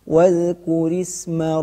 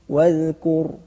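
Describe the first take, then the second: First: The r is thin and joined to the next word. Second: The r is heavy and the word is stopped. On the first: "ketika kita menjumpai huruf ra' kasrah dalam keadaan wasal dengan kata setelahnya, maka wajib ditarqiqkan" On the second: "ketika kita wakaf pada ra tersebut, maka wajib ditafkhimkan"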